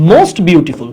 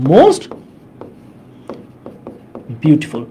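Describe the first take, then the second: First: Said in the usual way. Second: "most" raised and held open, long pause, then "beautiful" dropping low; dictation pace. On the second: Shown as a demonstration. Teacher repeats the superlative for students to write, broken dictation.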